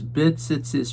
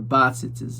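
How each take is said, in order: First: The first vowel is a short, reduced schwa. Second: The first vowel is a full 'a' sound. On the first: "should be pronounced with a shva" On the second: "the proper pronunciation is with a patach"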